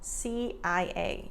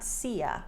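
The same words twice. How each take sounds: First: Each letter is said clearly and fully. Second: The letters are blurred and run together. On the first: The speaker calls it right. "You want to say every letter" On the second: The speaker calls it wrong. "not C I A"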